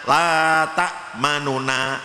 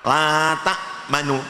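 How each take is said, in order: First: The vowel on the final nun is full and clear. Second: The vowel on the final nun is quick and faint. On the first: "itu namanya biasa" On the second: "harokat nu ini kita baca cepat, nah itu namanya cepat"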